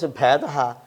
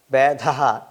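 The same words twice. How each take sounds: First: Bhedaha starting with an aspirated bh. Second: Vedaha with an unaspirated first consonant; wrong pronunciation. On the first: Teacher contrasting two forms both understood, aspirated Bh in Bhedaha. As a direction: say Bhedaha with a puff on the Bh. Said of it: "If you pronounce Bhedaha". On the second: Teacher showing a wrong form that is still understood, unaspirated start of Vedaha. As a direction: say Vedaha without the breathy bh at the start. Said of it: "whether you pronounce wrongly". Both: Shown as a demonstration.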